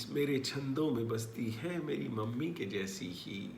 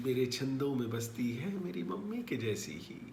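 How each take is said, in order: Both takes have the same delivery.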